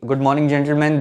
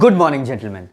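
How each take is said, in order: First: The voice stays on one flat tone. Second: The voice moves up and down in pitch.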